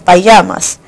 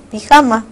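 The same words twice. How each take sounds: First: Payamas said the English way, like pie-YAH-mas; payamas, English-style; English pronunciation. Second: Pijama said the Spanish way, pee-HAH-ma, with a throaty j; pijama, Spanish-style; Spanish pronunciation. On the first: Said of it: "En inglés es pijama". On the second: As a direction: read pijama exactly as spelled in Spanish. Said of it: "tal y como suena". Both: Shown as a demonstration.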